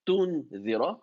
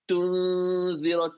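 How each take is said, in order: First: The n is pronounced clearly and separately. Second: The n is blended into the following sound. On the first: The speaker calls it wrong. "It's not clear noon" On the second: The speaker calls it right. "Something else is happening"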